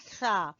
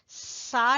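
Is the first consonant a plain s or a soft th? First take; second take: soft th; plain s. First: The first consonant is a soft th. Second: The first consonant is a plain hissing s. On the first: The speaker calls it right. "जबान की नोक को सामने वाले दो दांतों के सिरे से लगाएंगे तो निकलेगा सा" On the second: The speaker calls it wrong. "सा नहीं कहना, सा गलत है"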